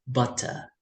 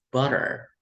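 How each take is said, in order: First: It is said with a British accent. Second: It is said with an American accent. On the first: "in British English, they would read this uh, as butter" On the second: "American would read this as butter"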